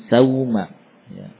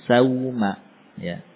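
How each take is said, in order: Both takes have the same delivery.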